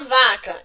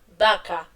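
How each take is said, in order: First: The word begins with a buzzing v sound. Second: The word begins with a lip b sound. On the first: The speaker calls it wrong. "Eu não vou falar vaca" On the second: The speaker calls it right. "a letra V em espanhol vai ter o sonzinho da letra B"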